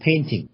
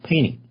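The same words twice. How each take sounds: First: The word is said in a British accent. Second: The word is said in an American accent. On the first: "영국식 발음이고요" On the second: "미국식 발음은"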